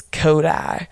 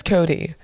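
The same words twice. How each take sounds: First: "Kodai" drawn out slowly, ending like "eye"; rambunctious name pronunciation. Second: Said in the usual way. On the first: Shown as a demonstration. Host shows Cody's rambunctious name, "Kodai" ending in a long "eye". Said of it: "when he gets rambunctious, it's Kodai". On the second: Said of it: "his name is Cody".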